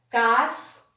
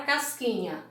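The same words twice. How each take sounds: First: CASQUINHA split as cas, qui, nha; syllable by syllable. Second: Said in the usual way. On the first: Shown as a demonstration. Teacher showing pupils how casquinha is separated, syllable by syllable. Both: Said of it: "eu separei a palavra casquinha".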